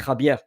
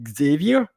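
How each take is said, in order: First: The name is said with Spanish pronunciation. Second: The name is said with English pronunciation. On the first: "But in uh, Spanish, could be Javier" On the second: "in English, probably uh, Xavier"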